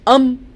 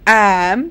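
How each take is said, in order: First: The word has a reduced, weak vowel. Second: The word has a full, strong vowel. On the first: "weak form" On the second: "strong forms"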